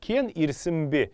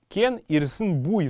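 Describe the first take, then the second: First: The phrase ends with a short 'be' syllable. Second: The phrase ends with a full 'bui' syllable. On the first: This is the modern form of the phrase. "но сейчас она звучит так" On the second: This is the old form of the phrase. "звучала в старину эта фраза"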